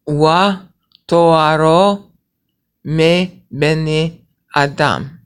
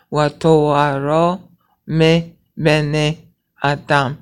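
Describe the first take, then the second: First: "Wa toaro" called out louder, then "me bene Adam" slowed right down; emphatic slow Hebrew reading; loud slow recitation. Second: "Wa" voiced clearly as a full syllable, then "toaro" drawn out slowly; slow reading sounding out each syllable, "Wa" included; pronounce the wa. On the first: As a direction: proclaim the line slowly. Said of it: "Okay, now watch". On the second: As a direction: sound the "Wa", don't drop it. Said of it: "you're pronouncing the wa". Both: Shown as a demonstration.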